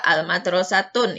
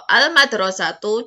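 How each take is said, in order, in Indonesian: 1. Kata ini berakhir dengan bunyi 'tun'. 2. Kata ini berakhir dengan bunyi 'tu' yang pendek. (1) "yang tidak bisa adalah al-madrasatun" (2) "Atau al-madrasatu juga bisa"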